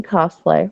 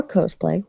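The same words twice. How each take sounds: First: "cosplay" with an open AH, "kahs-play"; short O pronunciation. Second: "cosplay" with a long O, "kohs-play"; first syllable of "cosplay" rhymes with "gross"; long O pronunciation. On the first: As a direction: say "cosplay" starting like "cost". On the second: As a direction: say "cosplay" starting like "coast". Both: Shown as a demonstration. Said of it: "however you pronounce it".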